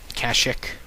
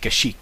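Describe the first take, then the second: First: The word ends with an 'ick' sound. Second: The word ends with an 'eek' sound. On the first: "like ick, yuck" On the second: "like cash, money, and chic, like the Irish chic"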